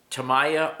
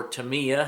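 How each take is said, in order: First: "Tamiya" said ta-MY-a; alternate pronunciation. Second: "Tamiya" said ta-MEE-a; alternate pronunciation. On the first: Hobbyist offering pronunciation options to viewers, "Tamiya" as ta-MY-a. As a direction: say "Tamiya" with a long-i middle, ta-MY-a. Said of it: "however you pronounce it". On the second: Hobbyist offering pronunciation options to viewers, "Tamiya" as ta-MEE-a. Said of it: "guys pronounce it all different ways". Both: Shown as a demonstration.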